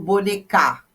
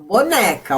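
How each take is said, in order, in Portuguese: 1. A tônica está na última sílaba. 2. A tônica está na sílaba do meio. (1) "não falo bonecar" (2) "o mais forte é o né"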